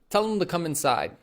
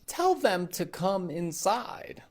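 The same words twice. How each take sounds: First: Them is reduced and sounds like tell him. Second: Tell them is said with a full them. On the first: The speaker calls it right. "We'll say" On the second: The speaker calls it wrong. "is unnatural"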